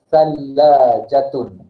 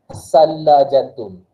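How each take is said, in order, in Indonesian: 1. Konsonan pertama adalah bunyi th lembut. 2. Konsonan pertama adalah bunyi s biasa. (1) "kita akan sebut sekali lagi" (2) "saya akan tunjukkan cara yang salah"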